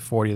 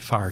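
First: The first vowel sounds like 'or'. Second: The first vowel sounds like 'ar'. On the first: "they don't say 40 that way" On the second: "If you're in St. Louis, ... They say farty"

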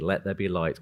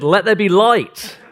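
First: It is said quietly and gently. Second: It is said loudly and forcefully.

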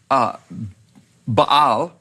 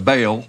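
First: The name is said with a Hebrew pronunciation. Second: The name is said with an American English pronunciation. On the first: "as you would say it in Hebrew" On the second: "as most people say it in America"

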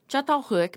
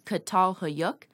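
First: The name is pronounced with Turkish sounds. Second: The name is pronounced with English sounds. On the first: "the settlement's name is in Turkish" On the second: "the equivalent pronunciation of the spelling in English"

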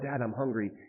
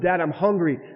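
First: It is said in a calm, plain way. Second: It is said in a desperate, pleading way.

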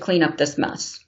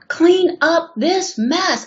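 First: The voice is calm and not raised. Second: The voice is somewhat raised and firmer. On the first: The demand is not meant seriously yet. "Her voice isn't raised" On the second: The demand is getting more serious. "I'd raise my voice a little more"

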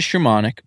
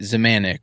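First: The name does not begin with a Z sound. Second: The name begins with a Z sound. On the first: This is how the family says it. "my family kind of said it Shimonic" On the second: This is how outsiders say it. "everyone I met said it Zamanic or even Zamansky or some kind of Z"

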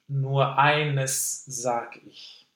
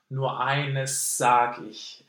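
First: A voiceless s is followed by a separate voiced z. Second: One long voiceless s replaces both sounds, no z. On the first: "the unvoiced eines, and sag ich, the voiced S" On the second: "lengthen the unvoiced S sound. And to drop the voiced S"

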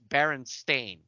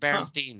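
First: The last syllable sounds like 'stain'. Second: The last syllable sounds like 'steen'. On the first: The speaker calls it right. "It's T-A-I-N. It's Berenstain" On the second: The speaker calls it wrong. "Not Berenstain"

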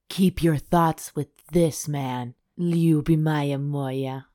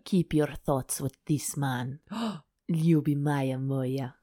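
First: It is said in the speaker's normal accent. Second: It is said in a put-on Russian accent.

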